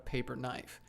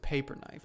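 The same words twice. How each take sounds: First: The stress falls on the word knife. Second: The stress falls on the word paper. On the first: A knife made out of paper. The speaker calls it wrong. "like the knife was made out of paper" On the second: A knife used for cutting paper. The speaker calls it right. "but it's a paper knife"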